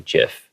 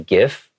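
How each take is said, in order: First: The word starts with a soft J sound. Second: The word starts with a hard G sound. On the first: The speaker calls it right. "it is more correct to say GIF. ... it has a more of a J sound" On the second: The speaker calls it wrong. "Some people I have heard say GIF"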